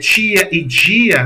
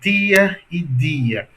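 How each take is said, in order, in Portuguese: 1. O t e o d chiam, como o ch e o j. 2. O t e o d são simples, com a ponta da língua no dente. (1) "esse pessoal que chama, diz que fala um chiado" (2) "É como a gente fala aqui em Maceió"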